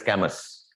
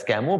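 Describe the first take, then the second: First: Said in the usual way. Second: Camus said ka-MU, the S stays silent; spoken Camus. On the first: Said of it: "but write as Camus". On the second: Shown as a demonstration. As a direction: say Camus as the French do, no S at the end. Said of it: "you pronounce as Camus".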